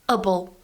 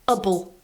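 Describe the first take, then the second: First: The vowel is reduced and weak. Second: The vowel is reduced and weak.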